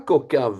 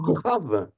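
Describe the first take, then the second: First: The middle consonant is a hard stopped k. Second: The middle consonant is a raspy throaty kh. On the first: The speaker calls it wrong. "C'est pas Kokav" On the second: The speaker calls it right. "Il n'y a pas de point dans le kaf, hein? Donc, c'est un Kha"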